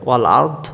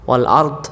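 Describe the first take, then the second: First: It ends on a bare 'd' sound. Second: It ends on a bare 'd' sound.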